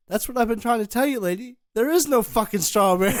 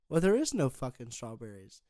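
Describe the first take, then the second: First: Loud, higher outburst breaking into laughter; exasperated clerk. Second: Said in the usual way. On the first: Acted. Clerk in the joke finally makes the lady get it, mock exasperated shout. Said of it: "He goes". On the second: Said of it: "She goes".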